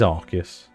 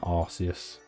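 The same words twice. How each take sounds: First: The c is said as a k sound. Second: The c is said as an s sound. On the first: The speaker calls it right. "It is Arceus" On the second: The speaker calls it wrong. "not Arceus"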